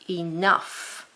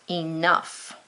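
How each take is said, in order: No difference in how they are said.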